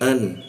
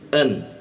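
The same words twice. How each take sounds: First: It begins softly, without a catch in the throat. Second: It begins with a sharp catch in the throat. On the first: The speaker calls it wrong. "Kalau huruf alif itu an" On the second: The speaker calls it right. "Tapi kalau hamzah itu ada penekanan dia"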